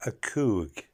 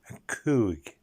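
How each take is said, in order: Both takes have the same delivery.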